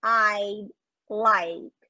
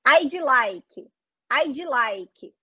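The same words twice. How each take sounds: First: "I'd like" linked, no vowel after D or K; correct reduced pronunciation. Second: "I'd like" as "aidji laiki" with a DJ ending; wrong Brazilian pronunciation. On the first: Teacher gives the correct version, reduced and linked. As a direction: say "I'd like" smoothly, no extra syllables. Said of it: "Não". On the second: Teacher demonstrates the error to avoid, Brazilian-accented. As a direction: break "I'd like" into syllables with added vowels. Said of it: "Aí tá muito errado". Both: Shown as a demonstration.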